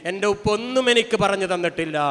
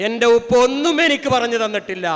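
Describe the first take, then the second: First: Said in the usual way. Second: Louder, stress on ഒന്നും with a falling end; emphatic repeat. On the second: Shown as a demonstration. Preacher repeats his point to the congregation, ഒന്നും stressed louder. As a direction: hit ഒന്നും hard, louder the second time.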